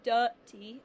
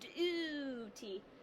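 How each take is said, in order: First: The first vowel is a short uh sound. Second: The first vowel is a long oo sound. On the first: The speaker calls it wrong. "it's not saying uh, like you up uh. It doesn't say duty" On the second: The speaker calls it right. "It says duty. ... it's saying a long sound"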